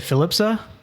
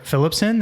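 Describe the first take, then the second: First: The name ends without the final N sound. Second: The name ends with a final N sound.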